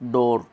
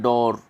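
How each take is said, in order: The two takes are said the same way.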